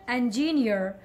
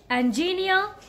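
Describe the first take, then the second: First: It is said with an American accent. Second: It is said with a British accent. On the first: "American engineer" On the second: "British engineer"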